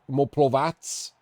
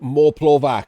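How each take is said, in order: First: The name ends with a TS sound. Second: The name ends with a hard K sound. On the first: The speaker calls it right. "With a T S" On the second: The speaker calls it wrong. "We don't use a hard C around here"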